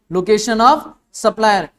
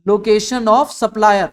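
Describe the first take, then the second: First: "location of supplier" again, very slow, word by word; slow repeated term. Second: Location of supplier said very slowly, each word apart; slow spelled-out term. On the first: Teacher repeating the term for students, slow and deliberate. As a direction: repeat "location of supplier" slowly for the class to note. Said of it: "क्या होगा". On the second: Teacher dictating the key term to the class, slow and deliberate. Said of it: "एक आएगा sir जी". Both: Shown as a demonstration.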